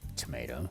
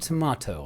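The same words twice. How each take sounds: First: It is said with an American accent. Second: It is said with a British accent.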